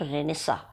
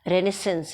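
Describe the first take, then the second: First: The word ends on a vowel sound. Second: The word ends with an 'ns' sound. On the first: The speaker calls it wrong. "It's not रेनेसा" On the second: The speaker calls it right. "रेनेसेंस है ये"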